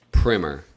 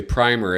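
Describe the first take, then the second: First: "Primer." with a short I, PRIM-er, rhymes with Skinner. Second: "Primer" with a long I, PRY-mer, rhymes with Slimer. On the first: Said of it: "some people say Primer as in S- ... Skinner". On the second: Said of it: "say Primer as in Slimer". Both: Shown as a demonstration.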